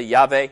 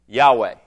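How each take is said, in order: First: "Yahweh" with the W as a V, YAH-vay; V-sound variant. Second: "Yahweh" with a W sound, YAH-way; Hebrew pronunciation. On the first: Pastor showing how some people say it, "Yahweh" with a V. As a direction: say "Yahweh" with a V in the middle. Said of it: "the W can sound like a V". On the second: Pastor teaching the Hebrew word, "Yahweh" pronounced with a W. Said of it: "the Hebrew pronunciation of this word". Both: Shown as a demonstration.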